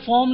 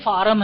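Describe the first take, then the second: First: The vowel is a rounded 'aw' sound. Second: The vowel is an open 'ah' sound. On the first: This is the standard English pronunciation. The speaker calls it right. "असल उच्चारण क्या है? ... इसको फॉर्म बोला जाता है" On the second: This is how people locally said it. The speaker calls it wrong. "हम लोग बोलते थे कि भाई फार्म भरा रहा है"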